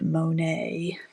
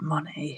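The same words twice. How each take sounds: First: The name is said with an American pronunciation. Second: The name is said with a British pronunciation. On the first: This is how it is said in America. "my American counterparts ... they call it Monet" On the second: This is how it is said in the UK. "We call it Monet here. It doesn't sound as good"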